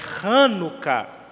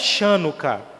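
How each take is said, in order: First: The word begins with a throaty h sound. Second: The word begins with a soft sh sound. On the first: The speaker calls it right. "é Hanukkah, porque o C H no hebraico tem um som de R" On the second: The speaker calls it wrong. "não é Chanukah"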